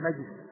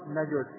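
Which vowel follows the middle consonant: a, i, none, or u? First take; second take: none; u. First: The middle consonant has no vowel after it. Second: The middle consonant is followed by a u vowel. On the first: "ويجوز السكون" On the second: "ويجوز الضم"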